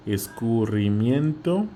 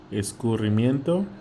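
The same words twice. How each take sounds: First: Escurrimiento drawn out slowly, each syllable separate; slow, broken up. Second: Said in the usual way. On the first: Shown as a demonstration. Teacher breaks Escurrimiento into slow syllables for the class. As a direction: spell out Escurrimiento slowly for the student. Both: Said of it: "Let me break it".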